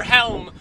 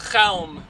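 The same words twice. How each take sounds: First: Said in the usual way. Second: Chelm with a throaty kh at the start; guttural initial sound. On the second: Shown as a demonstration. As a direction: say "Chelm" opening on a Hebrew-style guttural kh. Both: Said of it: "Or is it".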